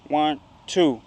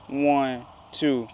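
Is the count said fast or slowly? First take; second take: fast; slowly. First: The count is said at a faster pace. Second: The count is said at a slower pace.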